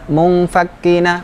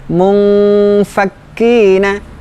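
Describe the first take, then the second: First: The nasal hum is cut short, rushed. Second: The nasal hum is held for a while. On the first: The speaker calls it wrong. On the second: The speaker calls it right. "Dengungnya tahan dulu sebentar"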